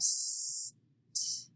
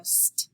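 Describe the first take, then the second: First: "st" pulled apart, long s, then t; separated sounds. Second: "st" as one quick blend; blended sounds. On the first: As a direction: hold the s in "st" before a separate t. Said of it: "instead of st". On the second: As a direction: slide the s straight into the t in "st". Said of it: "we slide them together". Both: Shown as a demonstration.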